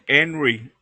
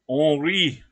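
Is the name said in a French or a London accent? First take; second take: London; French. First: The name is said with a London accent. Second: The name is said with a French accent. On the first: "as they would say in London" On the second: "That's the French one"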